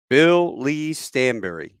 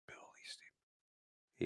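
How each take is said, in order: First: Slow, loud, higher statement; each name given room, projected; announcing his name. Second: Slow, barely audible whisper; hushed echo of a name just heard; stunned whisper. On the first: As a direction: report your full name clearly to a sergeant. Giving his name to the sergeant. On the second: Stunned sergeant repeats the name. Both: Retold or imitated.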